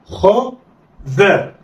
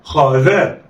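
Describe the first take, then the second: First: خا and ذا each alone with a pause; letters read separately. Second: خا ذا snatched together; blended quickly. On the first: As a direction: sound out خا then ذا. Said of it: "هقول إيه؟". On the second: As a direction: run خا and ذا into one. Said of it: "اخطف". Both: Shown as a demonstration.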